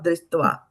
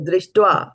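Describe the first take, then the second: First: The T is pronounced soft. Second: The T is pronounced hard. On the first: The speaker calls it wrong. "It is not Drishtva" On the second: The speaker calls it right. "It is not a soft T there... So it becomes hard"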